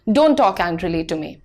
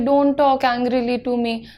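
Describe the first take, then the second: First: It is said firmly, with a note of authority. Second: It is said without firmness or authority. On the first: The speaker calls it right. "थोड़ा authority के साथ साथ कहना है" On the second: The speaker calls it wrong. "अगर तुम यही चीज ऐसे बोलोगे"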